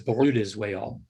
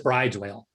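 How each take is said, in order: First: The name sounds like two syllables, 'brooda'. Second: The name sounds like the word 'bride'. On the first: This is the original Norwegian way. "that's actually Norwegian. It's Bruda" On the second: This is the common way people say it. "everybody says bride's whale"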